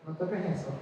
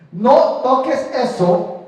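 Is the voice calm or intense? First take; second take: calm; intense. First: It is said in a plain, even voice. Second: It is said with a sharper, more intense voice.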